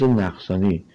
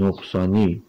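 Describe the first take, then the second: First: نقصانی said with a, as naqsani; نقصانی with an open first vowel, naqsani; chosen pronunciation. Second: نقصانی said with o, as noqsani; نقصانی with a rounded first vowel, noqsani; other pronunciation. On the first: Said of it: "ما با همین تلفظ نقصانی". (نقصانی با فتحه، نَقصانی) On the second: (نقصانی با ضمه، نُقصانی) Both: Shown as a demonstration.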